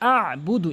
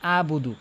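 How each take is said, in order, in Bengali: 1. শব্দটি চাপা গলার ব্যঞ্জন দিয়ে বলা হয়। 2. শব্দটি গলার ব্যঞ্জন ছাড়া বলা হয়। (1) "এভাবে চাপ দিয়ে বলতে হবে" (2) "তো এইভাবে বলে আবুদু"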